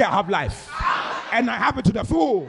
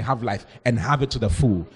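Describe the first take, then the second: First: Proclaimed for the congregation to echo, rising higher; emphatic declaration. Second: Said in the usual way. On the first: Shown as a demonstration. Preacher tells congregation to say it, in emphatic declaration. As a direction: declare it boldly, lifting the second phrase. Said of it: "Ah, say".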